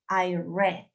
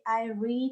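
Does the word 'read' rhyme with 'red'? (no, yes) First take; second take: yes; no. First: The word read sounds like red. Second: The word read does not sound like red. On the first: The reading happened in the past. "se pronuncia red, como el color" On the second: The reading happens regularly now. "read en el presente"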